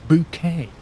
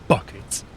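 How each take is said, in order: First: The name sounds like the word bouquet. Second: The name sounds like the everyday word bucket. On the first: A pretentious, posh-sounding form of the surname. "she pronounced it Bouquet" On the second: The plain, ordinary form of the surname. "her surname was Bucket"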